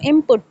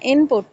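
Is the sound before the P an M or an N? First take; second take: M; N. First: The N is said as an M before P. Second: The N is said as a clear N before P. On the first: The speaker calls it right. "In fact इसको input पढ़ा जाता है" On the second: The speaker calls it wrong. "input नहीं पढ़ा जाता"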